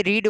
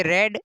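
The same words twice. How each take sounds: First: रीड with a long "ee", like "reed"; present-tense "read", pronounced रीड with a long vowel. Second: रेड with an "eh" vowel, like the colour red; past-tense "read", pronounced रेड like "red"; short e in रेड. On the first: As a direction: say रीड to rhyme with "need". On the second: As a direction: say रेड to rhyme with "bed". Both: Shown as a demonstration. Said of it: "इसका उच्चारण अलग अलग रहेगा".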